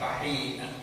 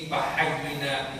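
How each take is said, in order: First: The middle has a short hi sound. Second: The middle has a doubled y sound. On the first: The speaker calls it wrong. "bukan fahina" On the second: The speaker calls it right. "Jadi di sini fahayyina bukan fahina"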